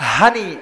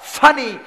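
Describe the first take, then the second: First: The word begins with an h sound. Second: The word begins with an f sound. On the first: "পানি কি কি কয়? হানি অথবা ফানি" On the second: "পানি কি কি কয়? হানি অথবা ফানি"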